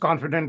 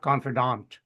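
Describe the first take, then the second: First: The last syllable sounds like 'dent'. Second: The last syllable sounds like 'dant'. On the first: The speaker calls it right. "the way you pronounced it" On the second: The speaker calls it wrong. "not like a double A, D A N T sound"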